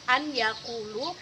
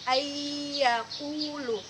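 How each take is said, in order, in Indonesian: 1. Bunyi n dilafalkan terpisah sebelum y. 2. Bunyi n menyatu menjadi y ganda yang berdengung. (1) "tulisan sebenarnya an yakulu" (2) "bunyinya menjadi ayyakulu"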